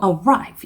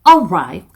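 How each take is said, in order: First: The stress is on the second syllable. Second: The stress is on the first syllable. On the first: The speaker calls it right. "두 번째에 들어가죠" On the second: The speaker calls it wrong. "아니고"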